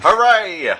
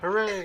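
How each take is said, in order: First: It is shouted loudly. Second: It is said more quietly.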